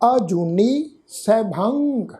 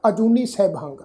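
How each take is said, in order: First: A slight pause separates the two words. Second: The two words run together without a pause. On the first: The speaker calls it right. "ਇਸ ਸ਼ਬਦ ਤੋਂ ਬਾਅਦ ਅਸੀਂ pose ਦੇਵਾਂਗੇ" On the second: The speaker calls it wrong. "ਇਸ ਢੰਗ ਨਾਲ ਉਚਾਰਨ ਨਹੀਂ ਕਰਨਾ"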